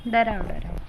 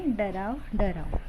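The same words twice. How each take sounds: First: Croaky imitation of a frog, डराव डराव; frog croak. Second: Said in the usual way. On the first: Shown as a demonstration. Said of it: "हा कसा ओरडतो बरं?". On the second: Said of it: "कवितेचं नावसुद्धा".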